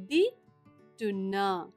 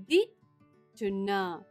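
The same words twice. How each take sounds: The two takes are said the same way.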